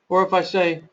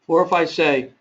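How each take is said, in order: No difference in how they are said.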